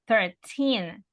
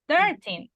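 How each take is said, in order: First: The stress is on the second syllable. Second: The stress is on the first syllable. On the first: The speaker calls it right. "So it's on the second syllable" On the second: The speaker calls it wrong. "Porque no dice thirteen"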